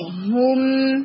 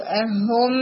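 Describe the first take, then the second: First: ہم with a rounded full damma; teacher models the proper ضمہ in ہم; correct version. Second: ہم with a weak damma, drawn out; teacher mimics the flat vowel in ہم; wrong version. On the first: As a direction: round the lips on ہم. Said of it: "یہاں پر تھوڑا ضمہ ہو". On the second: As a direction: imitate the student's thin ہم. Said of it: "نہیں". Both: Shown as a demonstration.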